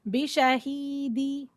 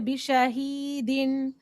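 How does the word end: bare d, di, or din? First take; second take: di; din. First: The word ends with a '-di' sound. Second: The word ends with a '-din' sound. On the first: "or bishahidi" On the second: "So we don't say bishahidin"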